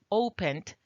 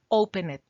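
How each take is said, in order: First: The e in the ending is not pronounced. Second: The e in the ending is pronounced aloud. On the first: The speaker calls it right. "La E no suena" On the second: The speaker calls it wrong. "No puedes decir"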